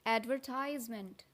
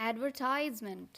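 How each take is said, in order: No difference in how they are said.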